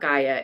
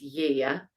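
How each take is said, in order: First: The name begins with a hard G sound. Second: The name begins with a Y sound. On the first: The speaker calls it wrong. "we've been saying it wrong all along. It's not Gaia" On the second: The speaker calls it right. "it's Yaya"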